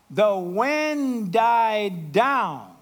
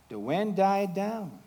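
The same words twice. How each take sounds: First: The wind died down drawn out very slowly; slowed down. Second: Said in the usual way. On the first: Shown as a demonstration. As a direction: let the words die away slowly like the wind.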